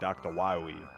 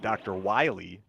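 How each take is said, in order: First: The name has a W sound in the middle. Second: The name has a clear L sound in the middle. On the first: The speaker calls it wrong. "they're saying doctor Waiwi" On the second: The speaker calls it right. "it's like doctor Wiley"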